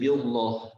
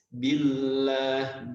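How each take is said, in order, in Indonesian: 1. L diucapkan tebal dan berat. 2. L diucapkan tipis dan ringan. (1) "nggak bisa jadi billah" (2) "ketika kasrah otomatis lamnya menjadi tipis"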